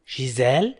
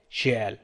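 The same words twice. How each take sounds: First: "شيزال" with a z, shee-ZAL; liaison Z. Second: "شيال" with no z, shee-AL; no liaison. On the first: Teacher contrasting two pronunciations for learners, liaison Z. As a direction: sound the linking z in شيزال. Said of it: "ينطقون شيزال". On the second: Teacher contrasting two pronunciations for learners, no liaison. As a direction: glide straight from vowel to vowel in شيال. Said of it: "وهناك من ينطق شيال". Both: Shown as a demonstration.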